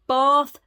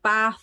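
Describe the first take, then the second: First: The vowel is a long open A. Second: The vowel is a short flat A. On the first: This is the form the stepfather demanded. "it's a long A" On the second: This is how the child naturally spoke. "I said something in a northern accent"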